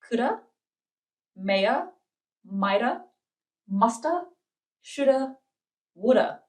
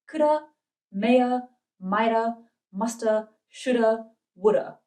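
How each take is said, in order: First: The list is said at normal speed. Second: The list is said a little faster.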